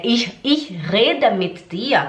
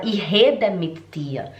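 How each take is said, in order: First: Rede said slowly with a German throaty R, slow and careful; correct German R. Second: Rede with a breathy Brazilian h sound, hede, slow; student's Brazilian R. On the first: Shown as a demonstration. Teacher demonstrates the correct German R in rede. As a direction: Ich rede mit dir with the German R in rede. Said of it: "em vez de falar é reden". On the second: Retold or imitated. Teacher imitates her student's Brazilian R in rede. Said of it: "ela falava".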